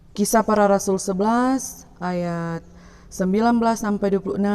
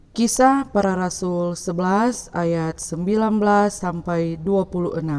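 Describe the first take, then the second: No difference in how they are said.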